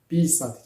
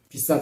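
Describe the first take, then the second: First: The stress is on the first syllable. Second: The stress is on the second syllable. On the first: To relieve oneself. "déplacement de cette accent tonique sur la première syllabe" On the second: To write. "qui veut dire écrire"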